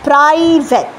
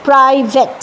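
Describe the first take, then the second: The two takes are said the same way.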